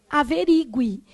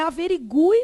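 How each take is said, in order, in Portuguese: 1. O u é átono, antes da vogal final. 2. O u é tônico, separado da vogal final. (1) "a gente tem mania de querer falar como averigue" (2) "Então é averigue mesmo. ... esse U aqui é ... tônico"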